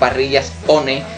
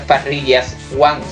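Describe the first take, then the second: First: 'One' is said as spelled, with two syllables 'o-ne'. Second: 'One' is said like English 'one', as 'wan'. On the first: The speaker calls it right. "sino Parrillas One" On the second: The speaker calls it wrong. "que ya sabemos que no es Parrillas One"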